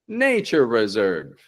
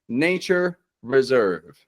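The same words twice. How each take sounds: First: The two R sounds merge into one. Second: The two R sounds are said separately. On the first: The speaker calls it right. "it just sounds like one R" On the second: The speaker calls it wrong. "we don't have to get nature reserve"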